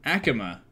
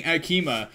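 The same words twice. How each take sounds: First: Akima stressed on the first syllable, AK-uh-muh; English-style pronunciation. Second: Akima with a long middle ee, ah-KEE-mah; Spanish-style pronunciation. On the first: Streamer copying the English translation, Akima as AK-uh-muh. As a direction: say Akima as AK-uh-muh, middle vowel reduced. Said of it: "Cause I've been saying Akima". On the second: Streamer showing their habitual Spanish-style take, Akima as ah-KEE-mah. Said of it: "saying it in a Spanish accent". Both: Shown as a demonstration.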